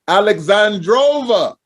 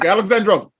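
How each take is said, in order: First: The name is said at a slower pace. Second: The name is said at a quick pace. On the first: "Did I say it right again?" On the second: "I want to say it quick. ... Like that. Like she says it"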